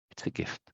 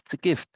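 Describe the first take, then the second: First: "It's a gift" whispered, no voice; whispered take of "It's a gift". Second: Said in the usual way. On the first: Shown as a demonstration. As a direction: breathe it out like a secret. Repeated phrase, whispered take.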